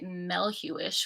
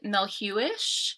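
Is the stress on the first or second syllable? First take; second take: first; second. First: The stress is on the first syllable. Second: The stress is not on the first syllable. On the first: "with the emphasis at the Mel" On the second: "I've always said"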